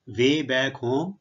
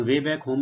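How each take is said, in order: First: Way back home drawn out word by word, ending on a rise; very slow. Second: Said in the usual way. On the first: Shown as a demonstration. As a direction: lay it out slowly for the class. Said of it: "ਹੁਣ way back home ਮੈਂ ਮਤਲਬ".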